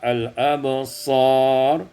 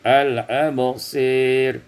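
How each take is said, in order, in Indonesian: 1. Vokal panjang itu adalah a terbuka biasa. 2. Vokal panjang condong ke bunyi e.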